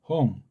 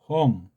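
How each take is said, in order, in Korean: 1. '홍'의 첫소리 h 소리는 울림소리이며 공명이 있습니다. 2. '홍'의 첫소리 h 소리는 울림소리이며 공명이 있습니다.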